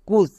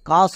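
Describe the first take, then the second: First: The vowel sounds like 'oo'. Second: The vowel sounds like 'ah'. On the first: The speaker calls it wrong. "কুস না" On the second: The speaker calls it right. "কিন্তু C ইউ S কাস হবে"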